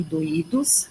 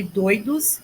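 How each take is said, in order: First: "doídos" stressed on the Í, split from the o. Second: "doidos" stressed on DOI, oi as one glide; stress on first syllable. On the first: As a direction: say "doídos" in three syllables, do-Í-dos. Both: Shown as a demonstration. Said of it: "o acento mudou tudo".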